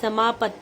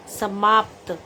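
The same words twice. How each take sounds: First: समाप्त said as samaapat with an added vowel; wrong pronunciation. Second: समाप्त ending in a clean pt cluster; correct pronunciation. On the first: (समाप्त का गलत उच्चारण) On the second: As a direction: close समाप्त on a tight pt. (समाप्त का शुद्ध उच्चारण) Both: Shown as a demonstration. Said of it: "इसको हम बोलेंगे".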